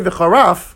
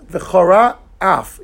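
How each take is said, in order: First: The two words are merged into one. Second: The two words are kept clearly apart. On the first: It sounds like a different word about embarrassing. The speaker calls it wrong. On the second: God will be angry. The speaker calls it right.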